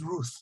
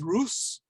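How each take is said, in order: First: The name ends with a th sound. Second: The name ends with an s sound. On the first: This is the ancient pronunciation. "probably she would have pronounced it as Ruth"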